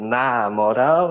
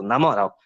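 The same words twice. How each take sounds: First: The two words are said as separate words. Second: The two words run together as one word. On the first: The speaker calls it wrong. "Em vez de ser" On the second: The speaker calls it right. "é só tudo junto"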